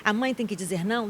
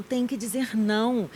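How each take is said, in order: First: Said in the usual way. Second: "Tem que dizer não" said slowly and firmly, falling at the end; slow down and stamp each word of "Tem que dizer não"; firm slow answer. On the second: Shown as a demonstration.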